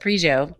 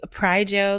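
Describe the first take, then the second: First: The first syllable does not sound like 'price'. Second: The first syllable sounds like 'price'. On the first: The name is said the way that sounds cooler. "It sounds cooler when I'm saying it" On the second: The name follows its source words. "it should be Pryjo because it's Price Johnson"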